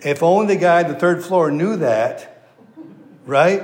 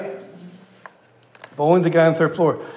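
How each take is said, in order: First: Laughing through the words at the punchline. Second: Slow, deliberate repeat of the punchline; slow emphasis. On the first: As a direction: chuckle while delivering the line. Preacher laughing at own joke. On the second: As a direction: drag it out so it sinks in. Preacher repeats punchline slowly. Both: Real, not acted.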